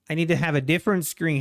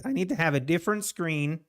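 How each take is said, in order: First: Faster and firmer, pressing the point; fast emphatic restatement; quicker insistent repeat. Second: Said in the usual way. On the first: Real, not acted. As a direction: repeat it with urgency.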